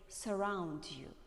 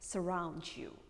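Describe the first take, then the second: First: The T sound is clearly released. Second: The T sound is softened and milder. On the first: "British people probably say surround you" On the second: "American people prefer to make it milder"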